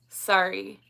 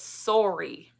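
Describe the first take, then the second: First: Sorry is said with an American vowel. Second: Sorry is said with a Canadian vowel. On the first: "He's like, it's sorry" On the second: "I'm like, no, it's sorry"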